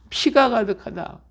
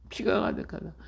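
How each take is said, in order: First: Said in the usual way. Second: "피가 가득하다" whispered, much softer; whispered repeat. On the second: Shown as a demonstration. Preacher echoing the verse to the congregation in a whisper. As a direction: breathe "피가 가득하다" as a hushed echo.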